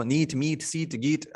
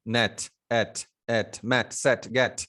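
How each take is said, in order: First: "नीट, मीट, सीट, गीट" with a long ee in place of short e; wrong vowel demo. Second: "नेट, मैट, सेट, गेट" with a short open e; short vowel demo. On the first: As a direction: list "नीट, मीट, सीट" as the mispronounced ee versions. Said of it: "ऐसा थोड़ी ना बोलते हम". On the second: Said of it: "तो short वाल sound". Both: Shown as a demonstration.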